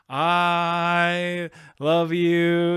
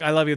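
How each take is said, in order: First: The words are drawn out slowly. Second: The words are said quickly.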